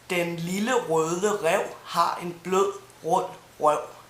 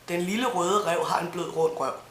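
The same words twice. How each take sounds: First: The sentence is said slowly and clearly. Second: The sentence is said quickly. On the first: "here it is slowly" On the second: "And fast"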